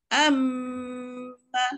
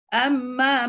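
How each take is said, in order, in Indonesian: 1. Bunyi m ditahan dengan dengung. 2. Bunyi m pendek dengan sedikit dengung. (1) "transit sikit" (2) "tak dengunglah tu, sikit sangat ya"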